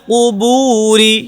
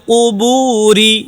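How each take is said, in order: No difference in how they are said.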